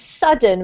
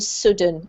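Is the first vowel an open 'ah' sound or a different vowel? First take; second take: ah; different vowel. First: The first vowel is an open 'ah' sound. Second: The first vowel is not an 'ah' sound. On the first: The speaker calls it right. "This word here is an ah sound to do with the vowel" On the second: The speaker calls it wrong. "rather than"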